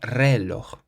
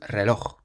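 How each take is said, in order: First: The stress is on the first syllable. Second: The stress is on the last syllable. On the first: The speaker calls it wrong. "So it's not reloj" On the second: The speaker calls it right. "We emphasize the loch on the end"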